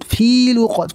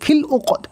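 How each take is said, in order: First: The vowel in the first word is drawn out. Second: The vowel in the first word is kept short. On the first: The speaker calls it wrong. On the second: The speaker calls it right.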